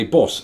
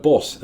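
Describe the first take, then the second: First: "bus" with a rounded northern vowel, as in "put"; "bus" in the speaker's northern pronunciation; northern English "bus". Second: "bus" with an open southern vowel, as in "cut"; "bus" as Americans expect a Brit to say it; southern English "bus". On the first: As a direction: say "bus" the Mancunian way, vowel like "book". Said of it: "I don't do it. I say bus". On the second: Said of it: "they would pronounce the word bus as". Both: Shown as a demonstration.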